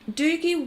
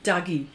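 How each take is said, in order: First: The first vowel is a long oo sound. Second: The first vowel is the vowel of Douglas. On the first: The speaker calls it wrong. "Have I said that right?" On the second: The speaker calls it right. "As in Douglas. It's got to be Dougie, not Doogie"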